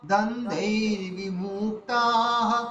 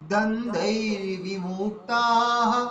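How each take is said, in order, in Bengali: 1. 'vi'-এর স্বরধ্বনিটি হ্রস্ব রাখা হয়। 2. 'vi'-এর স্বরধ্বনিটি হ্রস্ব রাখা হয়।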